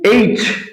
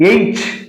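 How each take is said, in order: The two takes are said the same way.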